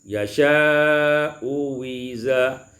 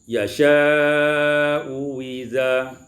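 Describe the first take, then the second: The two takes are said the same way.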